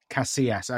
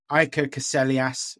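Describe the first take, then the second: First: "Casillas" as ka-see-ASS, no L sound; corrected pronunciation. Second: "Casillas" with the L sounded; mispronounced name. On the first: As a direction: repeat "Casillas" with the double L silent. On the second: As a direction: say "Casillas" as ka-SELL-ee-ass, L pronounced. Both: Real, not acted. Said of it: "correct me on the pronunciation".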